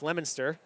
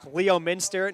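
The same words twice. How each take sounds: First: Several letters of the name are left silent. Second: Every letter of the name is sounded out. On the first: The speaker calls it right. "you don't pronounce like any letters" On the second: The speaker calls it wrong.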